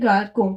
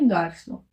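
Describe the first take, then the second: First: The middle consonant is a k sound. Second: The middle consonant is an s sound. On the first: "क्योंकि अभी सी के ऊपर यहाँ पे एक्सेंट नहीं है" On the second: "स करके प्रोनाउंस करेंगे, इसका प्रोनाउंसिएशन हो जाएगा फिर गार्सो"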